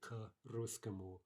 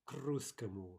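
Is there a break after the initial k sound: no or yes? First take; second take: yes; no. First: A pause or vowel separates k from the word. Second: The k runs straight into the next word. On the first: The speaker calls it wrong. "they introduce a pause uh, or at the very least some type of vowel sound" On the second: The speaker calls it right. "we would say"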